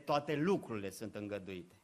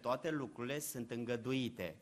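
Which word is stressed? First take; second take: toate; îngăduite. First: The stress falls on the word toate. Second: The stress falls on the word îngăduite. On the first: Everything without exception is allowed. The speaker calls it wrong. "accentul nu este pe toate lucrurile sunt îngăduite" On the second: All things are only tolerated for a time. The speaker calls it right. "Accentul este pe toate lucrurile sunt îngăduite"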